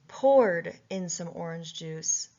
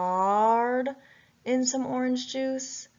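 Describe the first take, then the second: First: The first word has an 'or' vowel sound. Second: The first word has an 'ow' vowel sound. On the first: The speaker calls it right. "Does poured sound right? Yes" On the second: The speaker calls it wrong. "I first started with the vowel sound ow"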